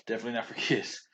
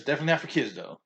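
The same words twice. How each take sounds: First: Laughing. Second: NOT said higher with a falling tune; stress on NOT. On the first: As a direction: laugh it off on kids. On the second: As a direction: lean on the word not, then drop. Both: Shown as a demonstration.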